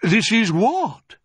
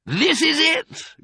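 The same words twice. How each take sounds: First: High, stretched-out query, heavy on WHAT; puzzled surprise. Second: High, slow, triumphant announcement; excited cry. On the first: Badger sees an empty cellar, baffled. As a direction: question it, drawing out "what". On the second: Mister Fox finds the cellar, excited cry. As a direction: cry it out, stretching each word. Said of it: "cried Mister Fox". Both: A narrator's reading.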